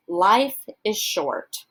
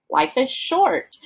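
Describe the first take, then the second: First: "life" punched, the rest falling away; "life" stressed, "is short" dropped. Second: "Life is" lifted high, "short" landed with a fall; high start, "short" hit last; stress on short. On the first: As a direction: lean on the word "life". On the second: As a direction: push the weight onto "short". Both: Shown as a demonstration. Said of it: "stress or emphasize different words in each phrase".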